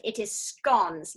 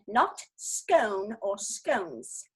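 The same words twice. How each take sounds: First: "scones" said slowly, rhyming with "gone"; "scones" drawn out, short o as in "gone"; correct pronunciation. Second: "scone or scones" said slowly, rhyming with "cone"; "scone" drawn out, long o as in "cone"; mock the wrong "scone" said like "cone"; wrong pronunciation. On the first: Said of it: "may I say for the record". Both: Shown as a demonstration.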